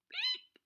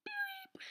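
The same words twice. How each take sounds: First: A squeaky high-pitched beep; high beep noise. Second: A tiny breathy squeak of a beep; whispered high beep. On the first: Recalling her fart at school, a high squeaky beep. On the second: Recalling the moment again, a whispered high beep. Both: Retold or imitated. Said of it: "I was like".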